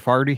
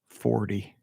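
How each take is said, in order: First: It is said in a St. Louis accent. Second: It is said in a general accent. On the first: "That's how you say it in Saint Louis" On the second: "I don't say it like that"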